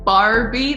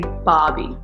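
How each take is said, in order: First: The R sound after the first vowel is pronounced. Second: The R sound after the first vowel is dropped. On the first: The speaker calls it wrong. "Instead of saying Barbie" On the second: The speaker calls it right. "like don't pronounce the R, just say Barbie"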